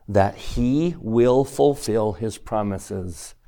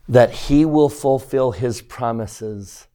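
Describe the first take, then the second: First: Slow down and lean on the word he in "that he will fulfill his promises"; stress on he. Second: Will leaned on, slow; stress on will. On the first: Teacher rereading the line for the class, stressing he. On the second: Teacher stressing will for the class, slow and firm. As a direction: lean on the word will in "that he will fulfill his promises". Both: Shown as a demonstration. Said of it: "what do you think is the key word".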